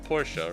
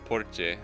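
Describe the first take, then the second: First: It is said the English way. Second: It is said the Japanese way. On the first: "in English we say Porsche" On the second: "The Japanese is Porche"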